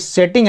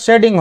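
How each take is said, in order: First: The middle consonant is a clear T sound. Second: The middle consonant sounds like a D. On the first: The speaker calls it wrong. "यहाँ पे भी अभी सेटिंग है ना" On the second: The speaker calls it right. "वास्तविक उच्चारण का शेडिंग होगा"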